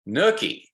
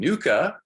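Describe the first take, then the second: First: The word is said as 'nuchae'. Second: The word is said as 'nucha'. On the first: The speaker calls it right. "the official way you pronounce it is nuchae" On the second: The speaker calls it wrong. "I've been calling it the ligamentum nucha"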